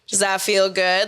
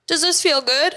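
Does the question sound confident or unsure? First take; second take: confident; unsure. First: It sounds confident and self-assured. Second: It sounds unsure and seeking approval.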